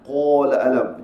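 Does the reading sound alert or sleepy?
sleepy. The reading sounds drowsy and sleepy. The speaker calls it wrong.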